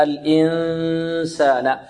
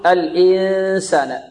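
First: Slow الإنسان, long hum mostly through the nose; correct ikhfa. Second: الإنسان with the held ن pushed through the mouth; wrong, mouth-heavy ikhfa. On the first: Teacher models the hidden noon, correct ikhfa. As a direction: hide the ن of الإنسان in a nasal hum ready for س. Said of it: "الخارج من الخيشوم أكثر". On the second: Teacher imitates some reciters' mistake, mouth-heavy ikhfa. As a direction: press the hum of الإنسان into the mouth, little nose. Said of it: "يضغط على الفم أكثر". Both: Shown as a demonstration.

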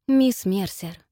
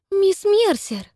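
First: Gentle. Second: High, louder gasping protest; shocked gasp. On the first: Jerry calming Miss Mercer, starting gently. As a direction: ease into it gently. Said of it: "начал он мягко". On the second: Cynthia shocked at Miss Mercer's remark, gasping high. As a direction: cry out the name in shock. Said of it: "ахнула я". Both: A narrator's reading.

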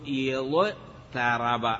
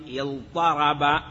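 First: يضطرب split after ḍ, then a plain light t; original form, light t. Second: اضطرب with a heavy ṭ after the ḍ; changed form, emphatic ṭ. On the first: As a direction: slowly say يضطرب as iḍ-taraba. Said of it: "أصله". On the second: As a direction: say اضطرب as iḍ-ṭaraba. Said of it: "قلبت التاء طاء فصار اضطرب". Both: Shown as a demonstration.

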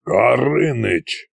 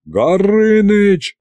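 First: Slow, drawn-out growl. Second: High, drawn-out shout of the name; exasperated yell. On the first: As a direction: growl the name as a warning. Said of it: "прорычал Кощей". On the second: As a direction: cry out to cut the dragon off. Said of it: "заорали все разом". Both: A narrator's reading.

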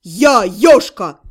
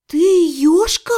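First: Loud, low, slow declaration; demon's bark. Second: Slow, disbelieving question, rising at the end; stunned babble. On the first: Demon announcing who he is, low loud bark. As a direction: boom out the name, low and drawn out. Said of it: "рявкнул демон". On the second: Mage realising who the demon is, stunned faltering. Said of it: "пролепетала я". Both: A narrator's reading.

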